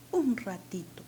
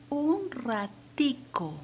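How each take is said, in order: First: "ratito" ending in a clear -to; Peruvian "ratito". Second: "ratico" drawn out, higher and louder, ending -co; Venezuelan "ratico". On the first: Teacher showing students how Peru says it, "ratito" with -to. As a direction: say "ratito" with a t in the last syllable. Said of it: "yo puedo decir, o decimos". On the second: Teacher showing students how Venezuela says it, "ratico" with -co. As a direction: slowly show "ratico" with a k sound in the last syllable. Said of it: "en Venezuela, ¿cómo lo dicen?". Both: Shown as a demonstration.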